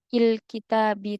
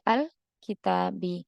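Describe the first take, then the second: First: The opening vowel is an 'i' sound. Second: The opening vowel is an 'a' sound. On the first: The speaker calls it wrong. "tidak kita baca" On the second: The speaker calls it right.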